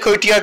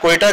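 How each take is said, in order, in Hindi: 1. शब्द के आखिर में एक extra 'iya' की आवाज़ आती है। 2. शब्द 'ta' की सादी आवाज़ पर खत्म होता है। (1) "प्रोनाउंस नहीं कर पा रहा था सही से वर्ड कोयटा का" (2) "कोयटा कहना चाह रहे हो?"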